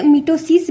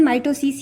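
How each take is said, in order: First: मिटोसिस said with first syllable "mi"; मिटोसिस opening on a short "i" vowel; alternative pronunciation. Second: माइटोसिस said with first syllable "my"; माइटोसिस opening on a long "eye" vowel; standard pronunciation. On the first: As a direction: pronounce मिटोसिस as "mi-toe-sis". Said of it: "लोग इसे मिटोसिस भी बोलते हैं". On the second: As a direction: pronounce माइटोसिस as "my-toe-sis". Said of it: "इसका pronunciation माइटोसिस ही होगा". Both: Shown as a demonstration.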